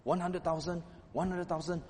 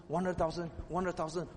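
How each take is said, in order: Both takes have the same delivery.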